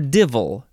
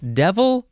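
First: The first vowel sounds like the one in bid. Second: The first vowel sounds like the one in bed. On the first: "some people pronounce it divil" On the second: "devil or divil"

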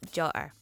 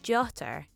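First: The middle consonant is a glottal stop. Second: The middle consonant is a clear t sound. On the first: The speaker calls it wrong. "not jotter" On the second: The speaker calls it right. "it should be jotter"

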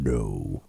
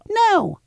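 First: It is said in a deep man's voice. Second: It is said in a child's voice.

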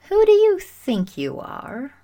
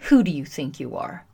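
First: It sounds genuinely curious and intrigued. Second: It sounds accusing and confrontational.

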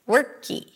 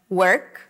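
First: A tiny E vowel is added after the K. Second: The word ends cleanly on the K sound. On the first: The speaker calls it wrong. "people just add another vowel" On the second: The speaker calls it right. "Instead of work"

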